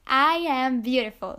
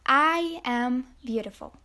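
First: Said out loud with conviction; louder, really mean it; getting louder. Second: Self-affirmation. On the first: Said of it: "come on, I can't hear you". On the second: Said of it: "look in the mirror and say". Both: Shown as a demonstration.

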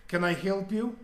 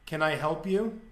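First: Put-on straight-faced line in a Russian accent; deadpan Russian accent. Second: Put-on flat, unbothered Russian accent; Russian accent, totally straight-faced; deadpan Russian accent. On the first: Russian girl to the intruding boss, deadpan Russian accent. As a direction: imitate a deadpan Russian accent, pitched a little up. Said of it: "Russian accent". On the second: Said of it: "it was just deadpan, ... Russian accent".

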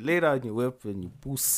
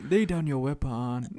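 First: Demonstrated South African accent. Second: Put-on film-style Nigerian accent, stilted; mock Nigerian accent. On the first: Shown as a demonstration. Showing friend how it should sound, South African accent. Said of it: "If you really wanted to speak like South African". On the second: Mocking the film's research, put-on Nigerian accent. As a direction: parody a misplaced Nigerian accent. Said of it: "who speaks like that besides Nigerians?".

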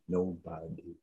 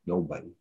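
First: Barely breathed nobody; whispered, hollow nobody; near whisper. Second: Softer, sinking nobody; a sad, quiet nobody; quiet despair. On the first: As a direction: let nobody fade almost to nothing. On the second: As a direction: let nobody drop away. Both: Real, not acted. Repeating in despair.

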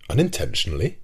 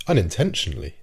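First: UNINTENTIONALLY thrown back as a question, tune rising; "Unintentionally" as a challenging question, swung up at the end; raised questioning echo. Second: UNINTENTIONALLY as an answer, tune falling at the end; "Unintentionally" offered as a reply with a closing fall; falling statement. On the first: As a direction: echo "Unintentionally" with a sharp final rise. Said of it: "raising his voice a little". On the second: Narrator's answer, echoed as question. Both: A narrator's reading.

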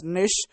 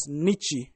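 First: "niche" in one syllable, short i and sh; niche as "nish". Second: "niche" in two syllables, ch then ee ending; niche as "nitchy". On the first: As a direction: pronounce niche to rhyme with "fish". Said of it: "I pronounce it as niche". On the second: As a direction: say niche as "NIT-chee". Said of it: "Some might pronounce it as". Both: Shown as a demonstration.

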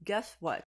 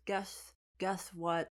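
First: Mock read-out, not taking it in; plainly recited, no halting; reading out loud. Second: Slow, halting read-out; drawn-out, tentative reading aloud; reading piece by piece. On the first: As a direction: read the words off a card. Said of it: "he literally reads out loud". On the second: Retold or imitated. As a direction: repeat the first word while deciphering. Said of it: "scratches the top and says".

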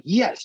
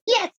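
First: Higher-pitched fan's cheer; retold cheer. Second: Put-on squeaky child's echo of a cheer; high toddler voice; imitating little girl. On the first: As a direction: cheer at the game, re-enacted. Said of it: "and I be like". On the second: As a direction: copy a tiny kid cheering along. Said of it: "She be like".

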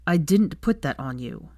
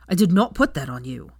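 First: Said in the usual way. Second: Louder, stress on "not" and "put"; shouted denial. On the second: Acted. Draco shouting his denial at Hermione, loud. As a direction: hammer "did not put" home. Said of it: "shouted back at her".

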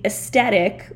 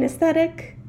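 First: "aesthetic" with a T for TH; misspelled pronunciation. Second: Said in the usual way. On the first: Shown as a demonstration. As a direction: say "aesthetic" as es-TET-ic. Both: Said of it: "They forgot the H in aesthetic".

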